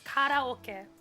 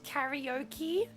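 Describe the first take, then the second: First: It is said with a Japanese pronunciation. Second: It is said with an English pronunciation. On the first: The speaker calls it right. "It's karaoke" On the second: The speaker calls it wrong. "it's not pronounced karaoke"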